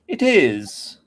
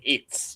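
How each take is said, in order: First: The two words are said fully and separately. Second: The two words are contracted into one syllable. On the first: The speaker calls it right. "you should say it is" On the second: The speaker calls it wrong. "instead of saying it's"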